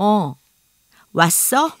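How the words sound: It is said in a stagey, theatrical way.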